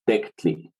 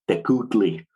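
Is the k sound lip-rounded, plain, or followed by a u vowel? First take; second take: plain; u vowel. First: The k is plain, with no rounding or vowel. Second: A full u vowel follows the k sound. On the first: The speaker calls it right. "probably more likely as Tectli" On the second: The speaker calls it wrong. "pronounce that as Tecutli ... It has a whole extra syllable"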